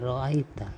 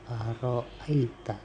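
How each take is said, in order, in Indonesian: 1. Kata ini diucapkan tanpa bunyi alif. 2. Kata ini diucapkan dengan bunyi alif dan hamzah. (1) "membaca ara'aita tanpa alif" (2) "membacanya dengan alif dan hamzah"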